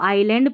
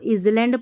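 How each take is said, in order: First: It starts with 'eye' and the s is silent. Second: It starts with 'iz' and sounds the s. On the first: The speaker calls it right. "यहाँ पर इसको आइलैंड पढ़ना है" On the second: The speaker calls it wrong. "इसको इजलैंड पढ़ देते हैं, नहीं"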